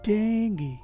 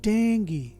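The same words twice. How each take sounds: First: The word ends with an 'ee' vowel sound. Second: The same.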